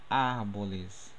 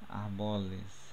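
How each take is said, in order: First: The stress falls on the first syllable. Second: The stress falls after the first syllable.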